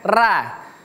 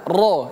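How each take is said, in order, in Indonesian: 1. Huruf r dibaca tipis, dengan vokal yang terang. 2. Huruf r dibaca tebal, dengan vokal yang dalam. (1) "bukan ra" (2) "Jadi dia tebal"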